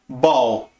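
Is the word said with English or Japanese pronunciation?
English. It is one syllable ending in an L sound. A native English speaker says it. "ele vai falar assim"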